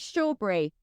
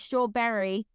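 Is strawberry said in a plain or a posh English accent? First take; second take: posh; plain. First: It is said in a posh English accent. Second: It is said in a plain, unposh accent. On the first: The speaker calls it right. "That's the proper way to say it because we speak English" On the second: The speaker calls it wrong. "We don't say strawberry"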